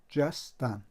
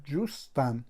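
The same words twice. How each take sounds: First: جستن said with an open a, ja-stan; jastan with a. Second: جوستن said with a clear u, ju-stan; jostan with u. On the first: Teacher showing pupils the zabar vowel, جستن with a. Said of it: "فتحه گذاشته شده است". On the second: Teacher showing pupils the pesh vowel, جوستن with u. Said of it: "در اینجا پیش گذاشته شده است". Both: Shown as a demonstration.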